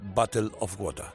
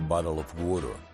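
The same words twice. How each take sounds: First: It is said with a British accent. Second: It is said with a Southern American accent. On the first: "con acento de Cambridge" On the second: "en lugar de decir"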